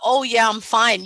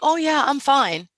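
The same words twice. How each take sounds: First: It is said in a flat, low way. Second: It is said in a bright, upbeat way. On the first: The person is not having a good day. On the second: The person is doing well.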